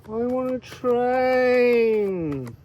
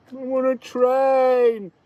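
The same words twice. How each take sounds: First: Very slow, high, drawn-out Welsh plea; Welsh accent. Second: Loud, high Welsh sing-song call; Welsh accent. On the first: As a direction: stretch it out longingly in a Welsh accent. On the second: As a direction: call out for the train in a Welsh lilt. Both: Pretend. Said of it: "I'm not very good at Welsh accent".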